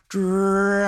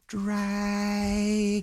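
First: Calling "Dragon" a bit louder; a little louder call. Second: Soft call. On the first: Elizabeth calling the sleeping dragon, a little louder. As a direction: raise the voice a notch on "Dragon". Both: Acted. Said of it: "Says a little louder".

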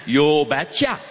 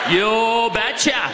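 First: Put-on lightly done Norwegian accent, low; a hint of a Norwegian father saying it. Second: Put-on slow, drawn-out Norwegian accent; a light Norwegian father impression. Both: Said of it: "in his thick Norwegian accent".

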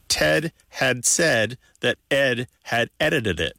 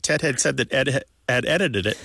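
First: Careful reading. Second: Ted had said that Ed had edited it tapped out in an even beat; sing-song rhythm on Ted had said that Ed had edited it; rhythmic reading. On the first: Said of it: "But if you say it". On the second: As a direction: bounce through each syllable of Ted had said that Ed had edited it like a drum pattern. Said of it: "it's got a da da da". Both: Shown as a demonstration.

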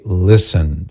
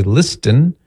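First: Listen with no T, lissen; silent T. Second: Listen with a hard T, lis-ten; T pronounced. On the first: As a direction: slowly say listen, dropping the T. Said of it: "We say listen". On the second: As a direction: sound the T in listen. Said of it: "if you pronounce the T". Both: Shown as a demonstration.

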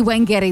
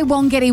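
First: Wengeti, first syllable as "wen". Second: Wongetty, first syllable rhymes with "on". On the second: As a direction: say "won" in Wongetty. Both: Shown as a demonstration. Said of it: "a lot of us say it a bit differently".

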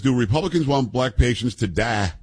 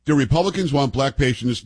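First: Quoting the congresswoman, stretching die into a southern tah; mock southern cadence on die. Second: Said in the usual way. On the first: Host mocks her southern cadence on the word die.

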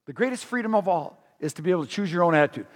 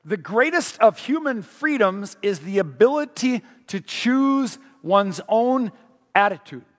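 First: Fast, lighter paraphrase; quick plain recap. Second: Stretched-out "choose one's own"; slow down hard on "choose one's own attitude"; reading the quote slow for weight; slow quotation. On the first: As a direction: rattle off the restatement. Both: Shown as a demonstration. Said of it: "He says".

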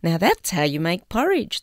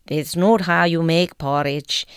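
First: Said in the usual way. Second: Imitated Scots lad from an advert; broad Scots accent. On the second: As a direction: put on a Scots accent with a tapped r. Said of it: "in a broad Scots accent".

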